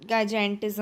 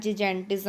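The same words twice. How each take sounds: First: Gigantism starting with a hard "gai" sound; hard-g pronunciation. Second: Gigantism starting with a soft "ji" sound; soft-g pronunciation. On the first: (gigantism को "गाइजैंटिज़्म" बोलें) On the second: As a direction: say gigantism as "ji-jantism". (gigantism को "जिजैंटिज़्म" बोलें) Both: Shown as a demonstration. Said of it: "आप जो भी बोलिए spelling तो same ही है".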